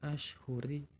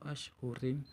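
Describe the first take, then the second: First: The word ends with a final i vowel. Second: The word ends with a final im. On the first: "bukan dibaca ashhuri" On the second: "atau ashhurim"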